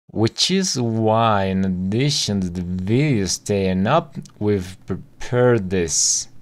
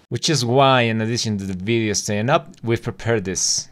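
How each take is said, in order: First: The sentence is said very slowly. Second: The sentence is said at natural speed. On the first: "Todo junto, muy lento" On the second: "tal cual lo dice esta persona"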